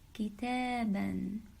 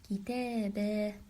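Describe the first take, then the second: First: The word ends with an n sound. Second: The word ends with a long a vowel. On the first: The word is said without stopping on it. "you would say kitaban" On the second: The speaker stops on the word. "If we stopped on it, we would say kitaba"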